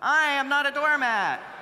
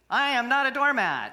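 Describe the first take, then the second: First: It is said loudly with strong energy. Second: It is said in a plain, moderate voice.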